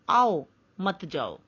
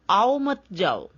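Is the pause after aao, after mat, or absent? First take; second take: after aao; none. First: There is a pause after aao. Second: It is said with no pause.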